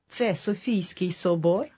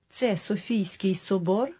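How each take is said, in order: No difference in how they are said.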